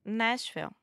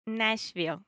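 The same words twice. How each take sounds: First: Nashville said plainly, with a short final L; Nashville on request. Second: Nashville with a long, exaggerated dark L at the end. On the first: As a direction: say Nashville with a light L. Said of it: "can you say that for me one time". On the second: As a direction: stretch the L in Nashville. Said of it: "just try to exaggerate a little bit and smile". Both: Shown as a demonstration.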